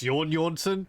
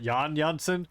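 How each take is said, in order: First: The first name sounds like 'Jorn'. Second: The first name sounds like 'Jan'. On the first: The speaker calls it right. "his name is pronounced Jorn" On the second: The speaker calls it wrong. "not Jan Janssen"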